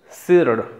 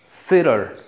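No difference in how they are said.

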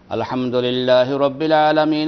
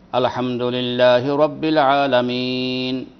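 First: It is recited hurriedly, running into the next. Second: It is recited slowly, with a stop after.

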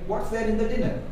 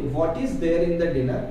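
First: 'What is' is shortened to 'what's'. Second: 'What is' is said as two full words. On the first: "जब आप एक बार आपकी fluency आ जाएगी" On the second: "आप basically ऐसे बोलेंगे"

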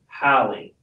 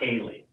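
First: The name is said as Hallie. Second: The name is said as Haley. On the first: The speaker calls it right. "She told me how to pronounce it" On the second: The speaker calls it wrong. "Not Haley. Because I'm saying it with a Y"

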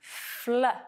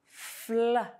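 Both takes have the same delivery.

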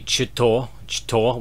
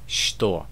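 First: The word begins with a ch sound. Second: The word begins with an sh sound. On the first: The speaker calls it wrong. "it should be что, which just sounds really weird. No one pronounces it this way" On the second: The speaker calls it right. "they pronounce it like a sh sound"

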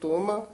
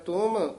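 First: The final m carries a slight vowel sound. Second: The final m is closed with no vowel. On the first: "ਜੇ ਤੱਤੇ ਹਲੰਤ ਨਾ ਹੋਵੇ ਫਿਰ ਤੁਮ" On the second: "ਇੱਥੇ ਹਲੰਤ ਹੈ ਤੁਮ"

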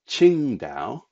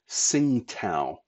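First: The name begins with a 'ch' sound. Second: The name begins with a 'ts' sound. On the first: The speaker calls it right. "It is Qingdao" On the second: The speaker calls it wrong. "you're forever hearing it called Tsingtao by people, but that is not how it's pronounced"

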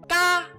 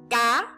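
First: The syllable is said on a level tone. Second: The syllable is said on a high rising tone.

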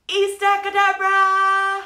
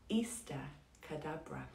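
First: It is shouted loudly. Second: It is said quietly, like a secret.

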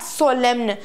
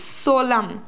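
First: The word ends in an 'm' sound plus an 'n'. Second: The word ends in an 'm' sound with no 'n'. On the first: The speaker calls it wrong. "not solemn. Many people pronounce this as solemn" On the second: The speaker calls it right. "It's solemn"

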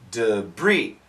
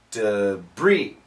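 The two takes are said the same way.

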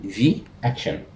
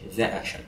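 First: The word 'the' is pronounced 'thee'. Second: The word 'the' is pronounced 'thuh'. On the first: The speaker calls it right. "شوف بقول في اكشن" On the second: The speaker calls it wrong. "مش ذا اكشن"

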